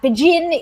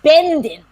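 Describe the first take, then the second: First: The name is said with its Polish pronunciation. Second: The name is said with its Yiddish pronunciation. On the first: This is what the town is called today. "how it is pronounced now in Polish"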